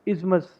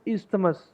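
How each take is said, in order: First: The th sound in the middle is silent. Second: The th sound in the middle is pronounced. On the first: The speaker calls it right. "इसकी correct pronunciation है इज़मस" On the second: The speaker calls it wrong. "इसको बोलते हैं हम इस्थमस"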